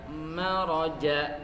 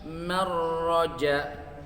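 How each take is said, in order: First: The r sound is single. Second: The r sound is doubled. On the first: The speaker calls it right. "seharusnya dibaca maraja" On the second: The speaker calls it wrong. "malah dibaca bertasydid"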